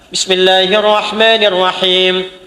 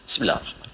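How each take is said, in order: First: It is recited aloud, clearly audible. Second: It is recited very quietly, barely audible.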